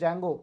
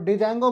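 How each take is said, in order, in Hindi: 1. शब्द की शुरुआत में J की आवाज़ है, D नहीं। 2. शब्द की शुरुआत में एक साफ़ D की आवाज़ है। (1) "डी साइलेंट है" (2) "इसको डिजैंगो मत पढ़ लेना"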